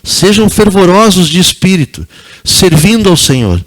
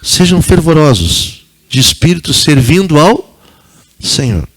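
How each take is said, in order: First: It is said at normal speed. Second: It is said slowly.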